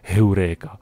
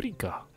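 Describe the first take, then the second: First: The word is pronounced the Czech way. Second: The word is pronounced the English way. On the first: "samozřejmě, že se to vyslovuje Heureka" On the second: "anglicky se to vyslovuje Eureka"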